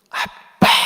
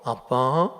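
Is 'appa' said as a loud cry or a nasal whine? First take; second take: loud cry; nasal whine. First: It is cried out loudly and forcefully. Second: It is said softly in a whiny nasal voice.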